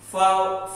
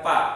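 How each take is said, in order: First: The syllable starts with an f sound. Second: The syllable starts with a p sound. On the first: The speaker calls it right. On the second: The speaker calls it wrong. "bukan pa"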